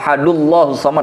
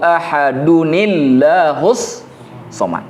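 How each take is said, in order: First: No linking sound follows 'ahadu'. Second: A linking 'ni' sound follows 'ahadu'. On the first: The speaker calls it wrong. "Nggak boleh langsung" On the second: The speaker calls it right. "Harus tambah nun kan?"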